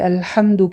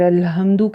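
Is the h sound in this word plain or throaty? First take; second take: throaty; plain. First: The h is a harsh sound from the throat. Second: The h is a plain, light breathy sound. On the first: The speaker calls it right. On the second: The speaker calls it wrong.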